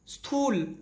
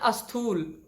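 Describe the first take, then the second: First: The word begins directly with the s cluster. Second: The word begins with an added a vowel. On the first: The speaker calls it right. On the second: The speaker calls it wrong.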